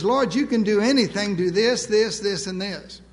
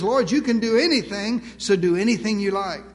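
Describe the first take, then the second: First: Pushy, ticking off orders to God one by one; mock-entitled list of demands; demanding presumption. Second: Open-handed and trusting, leaving the choice to God; humble trust, no demands; trusting surrender. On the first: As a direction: rattle off demands, finger jabbing each this. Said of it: "Presumption says". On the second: Retold or imitated. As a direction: offer it up gently, let Him choose. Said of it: "Faith says".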